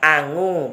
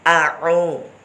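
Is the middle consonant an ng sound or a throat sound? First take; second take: ng sound; throat sound. First: The middle consonant is a nasal ng sound. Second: The middle consonant is made deep in the throat. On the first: The speaker calls it wrong. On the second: The speaker calls it right.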